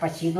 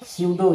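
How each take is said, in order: First: The p sound is clearly pronounced. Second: The p sound is silent. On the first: The speaker calls it wrong. "आप पसीडो नहीं" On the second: The speaker calls it right. "यानी पी silent है"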